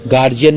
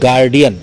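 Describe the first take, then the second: First: The middle consonant sounds like 'j'. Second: The middle consonant sounds like 'd'. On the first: The speaker calls it wrong. "गार्जियन नहीं" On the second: The speaker calls it right. "गार्डियन इसे कहते हैं"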